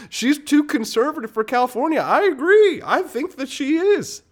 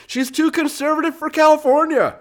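First: Much higher, louder mock concession; sarcastic agreement. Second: Much higher, louder sarcastic disbelief; incredulous mockery. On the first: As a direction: agree in a way that means the opposite. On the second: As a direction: read it as if it's absurd. Mock reading of absurd claim. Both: Real, not acted.

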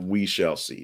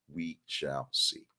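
First: Said in the usual way. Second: Slow, soft and ominous; ominous we shall see. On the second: Acted. Host teasing viewers about the launch, slow and ominous. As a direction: let it hang, slow and quiet.

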